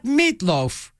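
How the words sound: Meat and loaf run together as one word. The speaker calls it wrong.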